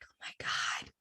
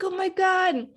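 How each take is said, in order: First: Breathless whispered oh my God; gasped whisper. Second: Higher, bright oh my God; excited exclaim. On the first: Watching the blank letter opened, a stunned whisper. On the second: Reliving the love confession, an excited higher exclaim. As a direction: let it burst out, thrilled. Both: Retold or imitated. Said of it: "I was like".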